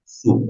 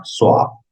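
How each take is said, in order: First: "soup" with one long "oo" sound; pronunciación correcta. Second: Crude wrong "Soap" for soup, with an O sound; mispronunciation. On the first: Shown as a demonstration. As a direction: say "soup" as "soop", the correct English way. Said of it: "Aquí está la pronunciación". (pronunciación correcta de "soup", con una "u") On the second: Acted. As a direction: say "Soap" with an O where "oo" belongs. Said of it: "ejemplo, un poco burdo". ("Soap" mal pronunciado, con "o" en vez de "u")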